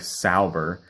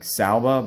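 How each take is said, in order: First: The name ends with an 'er' sound. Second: The name ends with an 'uh' sound. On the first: "I just hate pronouncing it like Sauber" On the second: "with an uh at the end instead of er, like Salba, but that sounds wrong too"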